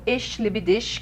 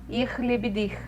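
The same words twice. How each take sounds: First: It uses the prestige, standard German pronunciation. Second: It uses the rural, lower-class German pronunciation.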